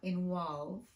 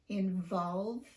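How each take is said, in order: First: The V in the word sounds like W. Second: The V in the word is a clear V. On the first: The speaker calls it wrong. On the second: The speaker calls it right.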